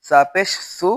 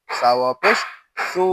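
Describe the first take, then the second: First: সু with a short u; no stretch. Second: সু with a long u; সু held long after a pause; stretched vowel. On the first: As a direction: cut the vowel of সু short. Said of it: "টান হবে না". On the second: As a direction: draw out the vowel of সু. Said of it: "আমরা টান দিব". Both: Shown as a demonstration.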